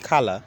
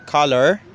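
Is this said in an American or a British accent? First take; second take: British; American. First: The final R is silent, British style. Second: The final R is clearly sounded, American style. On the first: "the British people say color and they don't pronounce the R" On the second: "the American uh, say color, uh, emphasizing the R"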